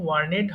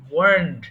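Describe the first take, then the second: First: The word ends with an extra 'ed' syllable. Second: The word ends in a plain d sound. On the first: The speaker calls it wrong. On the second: The speaker calls it right.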